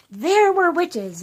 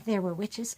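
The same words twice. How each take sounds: First: Put-on higher, louder, slow child's voice; child's answer. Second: Said in the usual way. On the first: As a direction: say it like an eager kid. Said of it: "And they say". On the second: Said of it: "You don't wanna just start by saying".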